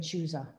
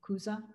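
First: The word begins with a ch sound. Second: The word begins with a hard k sound. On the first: The speaker calls it wrong. "I was saying Chuza" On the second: The speaker calls it right. "it's Chuza with a hard C, not C-H"

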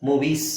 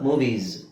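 First: The word ends with an s sound. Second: The word ends with a z sound. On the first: The speaker calls it wrong. "ಮೂವೀಸ್ ಅಲ್ಲ" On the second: The speaker calls it right. "I E S ಇಂದ ಯಾವುದೇ ಪದ ಕೊನೆ ಆಗಲಿ ಅದು ನಿಮಗೆ ಈಸ್ ಅಂತಾನೆ ಹೇಳಬೇಕು"

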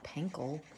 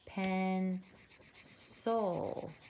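First: The word begins with a hard K sound. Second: The word begins with a soft S sound. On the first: The speaker calls it wrong. "Not pencil" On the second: The speaker calls it right. "So it would be soft C"

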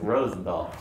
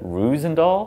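First: The first vowel is an 'oh' sound. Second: The first vowel is an 'oo' sound. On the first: The speaker calls it right. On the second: The speaker calls it wrong.

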